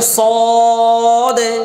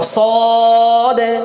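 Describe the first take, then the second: Both takes have the same delivery.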